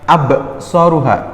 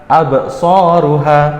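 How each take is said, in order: The two takes are said the same way.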